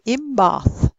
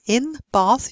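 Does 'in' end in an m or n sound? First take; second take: m; n. First: The word in ends with an m sound. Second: The word in ends with an n sound. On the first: "you'd say in bath" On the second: "instead of in bath"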